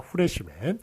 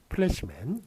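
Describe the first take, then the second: First: It begins with an h sound, Japanese style. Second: It begins with a p sound and an l. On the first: The speaker calls it wrong. "일본의 그 전형적인 발음이 들어왔던 것이죠" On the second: The speaker calls it right. "요 F는 이제 피읍으로 적기로 했죠"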